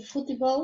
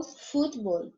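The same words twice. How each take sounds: First: Futebol in three syllables, stressed on BOL. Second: Futebol in two syllables, FÚTbol; stress on FUT. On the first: Teacher gives the Portuguese take, stress on BOL in futebol. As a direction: say futebol as futiBOL, rising. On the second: Teacher gives the Spanish take, stress on FUT in futebol. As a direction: say futebol without the E, stressed at the start. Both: Shown as a demonstration. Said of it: "só muda a sílaba tônica".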